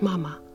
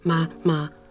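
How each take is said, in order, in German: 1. Die Silben sind weich, glatt und süß. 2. Die Silben sind knapp und abgehackt. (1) "sondern sehr niedlich" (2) "Nicht abgehackt"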